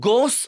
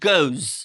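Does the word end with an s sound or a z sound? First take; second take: s sound; z sound. First: The word ends with an s sound. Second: The word ends with a z sound. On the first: The speaker calls it wrong. "তখন কিন্তু গোস উচ্চারণ হয় না" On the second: The speaker calls it right. "তখন হয় গোজ"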